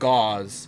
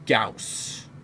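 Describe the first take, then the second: First: The word ends with a z sound. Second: The word ends with an s sound. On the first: The speaker calls it wrong. "I pronounce it gauze" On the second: The speaker calls it right. "I think it's actually pronounced Gauss"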